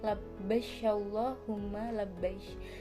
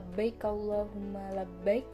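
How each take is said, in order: First: The final word ends in a 'sh' sound. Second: The final word ends in a 'k' sound. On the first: This is a dialect form. "menggantikan bunyi kaf dengan bunyi shin" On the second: This is the original form. "dari asal kata"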